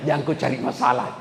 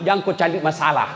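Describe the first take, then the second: First: Fast, laughing through the warning; laughing repeat of the warning to husbands. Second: Said in the usual way. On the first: Real, not acted.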